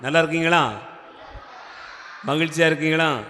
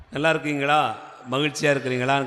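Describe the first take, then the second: First: Projected check-in, each question set apart; prompting a response. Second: Said in the usual way. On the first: Real, not acted. Preacher asks a silent congregation for more sound, prompting call. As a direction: put "நல்லா" and "மகிழ்ச்சியா" out firmly to draw an answer. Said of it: "sound வர மாட்டேங்குது". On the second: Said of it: "கேட்கும்போது sound வர மாட்டேங்குது".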